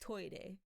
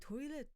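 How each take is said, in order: First: It is said with Japanese sounds. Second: It is said with English sounds. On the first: "it's toire" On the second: "if you say toilet, maybe they would understand"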